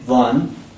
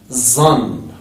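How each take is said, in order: First: The word begins with a voiced 'th' sound. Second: The word begins with a 'z' sound.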